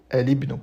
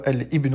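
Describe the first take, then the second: First: Al runs smoothly into ibnu without a catch. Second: A glottal catch separates al from ibnu. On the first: The speaker calls it right. "on n'a pas de coupure de la gorge" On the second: The speaker calls it wrong. "on ne dit pas"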